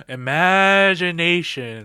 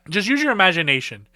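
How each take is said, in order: First: Imagination said slowly, stretched out; slow drawn-out repeat. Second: Said in the usual way. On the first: Shown as a demonstration. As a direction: linger on Imagination as a knowing echo. Repeats word slowly for effect.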